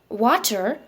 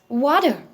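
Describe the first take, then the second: First: The middle consonant is a clear T sound. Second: The middle consonant is a soft D-like sound. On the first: "instead of calling this word as water" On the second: "the sound of the T is being replaced by the D sound"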